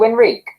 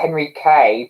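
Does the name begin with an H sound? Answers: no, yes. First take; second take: no; yes. First: The name begins without any H sound. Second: The name begins with an audible H sound. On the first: The speaker calls it right. "so Enrique" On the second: The speaker calls it wrong. "not the Henrique, but the H is not pronounced"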